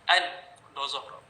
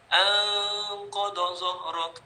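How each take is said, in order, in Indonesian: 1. Bunyi n dibaca dengan jelas tanpa dengung sengau. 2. Bunyi n disembunyikan dengan dengung sengau yang panjang.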